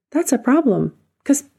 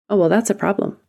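First: "That's a problem" pitched up and punched on "That's"; higher emphatic restatement. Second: Said in the usual way. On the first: Acted. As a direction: lift it high and land it hard.

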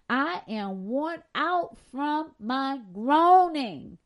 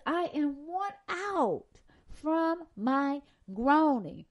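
First: Drawn-out groaning; louder, lingering on groaning; slow weary reading. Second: Worn and groaning stretched slow; weary drawn-out repeat; slower lingering repeat. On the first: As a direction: read it slow and heavy. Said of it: "This is David talking". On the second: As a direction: drag out groaning. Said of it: "moaning and groaning". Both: Shown as a demonstration.

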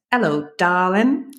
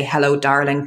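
First: Put-on toddler's drawn-out, higher English accent; clear English accent. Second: Said in the usual way. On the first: Toddler greets the family dog Storm, in a clear English accent. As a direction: imitate a little one's very clear English accent. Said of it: "in this extremely clear English accent".

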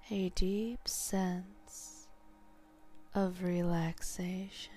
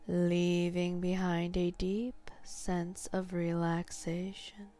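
First: Slow whispered echo. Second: Hypnotic suggestion. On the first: Hypnotist echoing the suggestion, slow whisper. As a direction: echo it back, slower and breathier. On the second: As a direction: state it gently, steady pace. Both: Shown as a demonstration.

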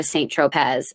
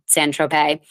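First: Tropez said "troh-PEZ", z sounded; mispronounced Tropez. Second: Tropez said "troh-PAY", silent z; French-style Tropez. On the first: Retold or imitated. Asking friends out to a bar, Tropez mispronounced with a z. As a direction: read Tropez as spelt, ending in a z. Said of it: "laughed in my face". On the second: Shown as a demonstration. Naming a New York bar, Tropez with silent z. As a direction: end Tropez on an "ay" sound.

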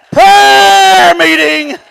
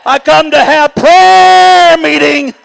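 First: Prayer meeting shouted high and very slowly stretched; shouted echo. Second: Prayer meeting stated firmly, a touch higher and slower; firm declaration. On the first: Preacher echoing his own words to the church, stretched shout. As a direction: cry out Prayer meeting, dragging every syllable. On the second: Preacher telling the church why he comes, firm statement. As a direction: set up the phrase prayer meeting with steady emphasis. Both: Shown as a demonstration.

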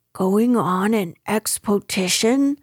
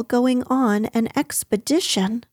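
First: "expotition" with "poh" in the middle and a t; mispronounced "expotition". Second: "expedition" said properly with a d, ek-spuh-DI-shun; correct "expedition". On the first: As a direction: say "expotition" as ek-spoh-TI-shun. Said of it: "said Pooh eagerly". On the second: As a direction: say "expedition" clearly, middle syllable "puh". Correct word set against Pooh's version. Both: Acted.

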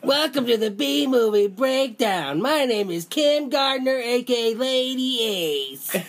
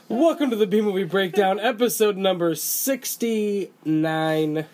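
First: Put-on high, slow little girl voice. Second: Said in the usual way. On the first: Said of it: "You're gonna do it in a little girl voice". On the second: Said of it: "back to host voice".

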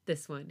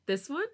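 First: Low, intimate chuckling answer; low chuckle. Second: High rising question. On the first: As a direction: say it close in her ear, amused. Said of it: "he chuckles in my ear". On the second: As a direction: ask it with a bright upward lilt. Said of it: "He smiles and shakes his head". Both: A narrator's reading.

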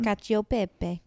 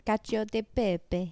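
First: Careful slow "Cacio pepe"; correct Italian pronunciation. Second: "Cacio de pepe" with an exaggerated Italian accent; slow, hammed-up Italian "Cacio de pepe"; mock Italian accent. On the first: Shown as a demonstration. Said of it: "I'm saying it wrong". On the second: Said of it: "you know who I'm mocking".

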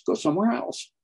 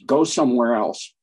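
First: "somewhere" lifted much higher with a rising tune; pitch rise on somewhere. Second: Said in the usual way. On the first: Real, not acted. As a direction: push "go somewhere else" up high, dismissive.

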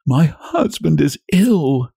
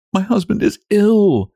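First: High, slow understated sob; grief-stricken wife, mildly acted; sobbed out. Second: Very high, held-back distress; tearful wife keeping control; restraining sobs. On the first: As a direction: draw the words out tearfully, pitched up. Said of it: "she sobbed out". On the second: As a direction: hold the tears in, voice pitched right up. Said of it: "restraining her sobs". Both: A narrator's reading.

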